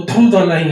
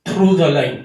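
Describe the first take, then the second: First: Said in the usual way. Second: Slow emphasis. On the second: Shown as a demonstration. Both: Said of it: "above the line, on the line और third place".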